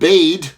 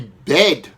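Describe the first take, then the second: First: The vowel is a long ee sound. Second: The vowel is a short e sound. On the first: The speaker calls it wrong. "So you would read it not bead" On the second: The speaker calls it right. "it makes a short vowel sound"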